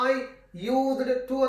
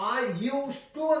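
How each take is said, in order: First: A separate d is said before to. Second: The d is said as a t. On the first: The speaker calls it wrong. "ಅದನ್ನ I ಯೂಸ್ಡ್ ಟು ಅಂತ ಅನ್ನೋದಿಲ್ಲ" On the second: The speaker calls it right. "I ಯೂಸ್ ಟು ಅಂತೀವಿ"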